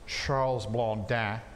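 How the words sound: The name is said with a French pronunciation. "if he's French, it's probably more like Charles Blondin"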